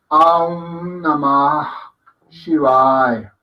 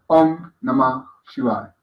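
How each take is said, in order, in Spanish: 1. La primera vocal se alarga en un sonido largo. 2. La primera vocal se dice corta. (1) "no es decir Aum Namah Shivaya" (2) "Om, Om, es una corta"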